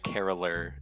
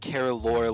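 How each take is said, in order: First: The last syllable has a reduced 'lur' vowel. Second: The last syllable has a full 'lore' vowel. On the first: "or like lur, like caroler" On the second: "like lore"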